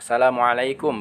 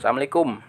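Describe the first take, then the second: First: The greeting is pronounced fully and carefully. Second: The greeting is pronounced in a clipped, careless way. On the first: The speaker calls it right. "Ucapkan salam yang benar ya" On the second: The speaker calls it wrong. "bukan ... ini tidak tepat"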